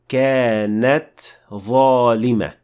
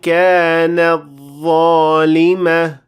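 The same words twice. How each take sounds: First: The t is clearly released before the next word. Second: The t merges into the following dh sound. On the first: The speaker calls it right. "You have to show the ta at the end of the word" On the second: The speaker calls it wrong. "the mistake here would sound like this"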